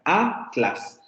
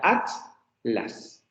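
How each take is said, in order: First: "Atlas" divided as a; división a-tlas. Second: "atlas" divided as at; división peninsular at-las. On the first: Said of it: "Para nosotros esa es la división silábica". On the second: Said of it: "en español peninsular sería". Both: Shown as a demonstration.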